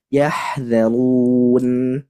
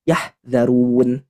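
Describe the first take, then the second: First: The h sound flows out with audible breath. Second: The h sound is cut off without flowing breath. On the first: The speaker calls it right. "tapi mengalir" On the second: The speaker calls it wrong. "Tidak boleh dibaca"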